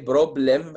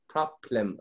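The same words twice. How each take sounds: First: Neither opening consonant releases a puff of air. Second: Both opening consonants release a puff of air. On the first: "مفيش حاجة تحرك" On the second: "الاثنين هتحرك, like problem, غلط"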